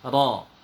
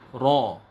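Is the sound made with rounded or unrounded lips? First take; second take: unrounded; rounded. First: The lips stay relaxed with the tongue back raised. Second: The lips are pushed forward and rounded. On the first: The speaker calls it right. "terangkatnya pangkal lidah" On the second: The speaker calls it wrong. "bibir tidak boleh monyong. Contoh"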